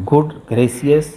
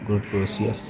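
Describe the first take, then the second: First: Surprised exclamation. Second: Said in the usual way. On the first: Shown as a demonstration. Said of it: "an exclamation word used to show surprise". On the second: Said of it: "surprise के लिए".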